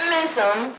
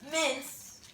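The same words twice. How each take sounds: First: Loud. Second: Said in the usual way. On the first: Shown as a demonstration. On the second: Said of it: "Mince 'em".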